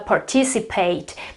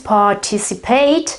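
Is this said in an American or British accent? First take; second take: American; British. First: It is said in an American accent. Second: It is said in a British accent. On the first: "in the um, American English is" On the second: "in the British English is"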